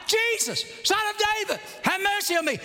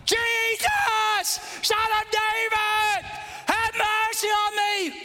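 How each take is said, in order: First: High, short-held cries; acted yelling. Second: High, sustained bellow; drawn-out yelling. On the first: Blind man yelling out to Jesus, brisk acted yell. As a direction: yell it high, falling off toward the end. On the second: Acted. Blind man told to shut up, yelling longer to Jesus. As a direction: stretch every phrase into a long, high shout. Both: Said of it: "Blind man yelling out".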